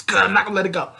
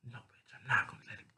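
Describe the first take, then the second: First: High, loud acted outburst; loud protest. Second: Fast, voiceless whisper; whispered refusal. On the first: Salem protesting she won't let him go, high and loud. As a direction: burst out high and loud, refusing to give up. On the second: Acted. Salem refusing to let her lover go, in a quick whisper. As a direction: whisper it quickly under your breath.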